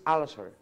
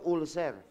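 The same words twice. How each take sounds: First: It is said with a standard English pronunciation. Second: It is said with a Filipino pronunciation. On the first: The speaker calls it right. "the right pronunciation is ulcer" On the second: The speaker calls it wrong. "Sa Pilipinas, ang pronunciation nyo"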